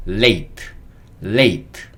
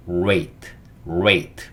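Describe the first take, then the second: First: "late" with the tongue tip tight behind the upper teeth; L pronunciation demo. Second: "rate" opened with a strongly curled R; R pronunciation demo. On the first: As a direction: press a crisp L to start "late". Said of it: "혀가 윗니 뒤에 딱 붙어서". (혀를 윗니 뒤에 붙인 L 발음) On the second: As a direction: roll the tongue right in before saying "rate". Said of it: "혀를 안으로 싹 맙니다". (혀를 싹 말아 내는 R 발음) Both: Shown as a demonstration.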